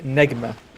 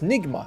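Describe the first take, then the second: First: The first vowel sounds like 'eh'. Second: The first vowel sounds like 'ih'. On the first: The speaker calls it right. "it's supposed to be pronounced like Negma" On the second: The speaker calls it wrong. "people are like, no, it's Nigma"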